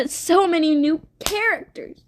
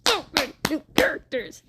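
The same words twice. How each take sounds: First: High, gushing exclamation; higher-pitched, overwhelmed excitement; excited exclamation. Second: Fast, high put-on voice; quick, squeezed, high mock echo; mock squeal. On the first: Real, not acted. Excited recap, exclaims over new characters. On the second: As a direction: repeat it in a rushed silly voice. Repeats exclamation in odd voice.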